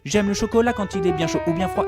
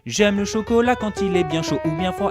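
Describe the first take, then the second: First: The sentence is spoken at a fast pace. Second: The sentence is spoken at a slow pace.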